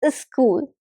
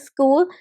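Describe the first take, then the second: First: An extra i vowel comes before the s. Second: The word starts directly with the s sound. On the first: The speaker calls it wrong. "an I before S" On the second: The speaker calls it right. "instead of saying school"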